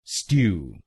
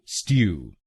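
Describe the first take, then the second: The two takes are said the same way.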